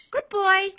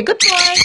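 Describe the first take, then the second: First: Put-on "Good boy" high and much softer; soft teaching cue. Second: Put-on high cue at normal volume, "Good boy" falling; teaching cue. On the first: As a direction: repeat "Good boy" up high but hushed. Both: Shown as a demonstration.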